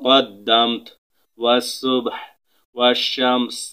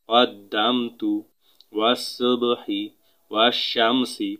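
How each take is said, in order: First: Each word ends on a bare consonant sound. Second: Each word ends with a short vowel sound.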